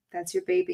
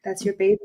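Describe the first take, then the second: First: Soft, much higher, tender repeat; cooing it gently, like to a grieving friend; tender higher echo. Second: Said in the usual way. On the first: Real, not acted. Host gently echoes to the guest about her dog, tender and high.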